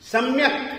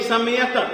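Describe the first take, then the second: First: The m is half, joined to the next sound. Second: The m is said as a full syllable. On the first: The speaker calls it right. "म जो है आधा है" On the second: The speaker calls it wrong. "म को पूरा बोलेंगे"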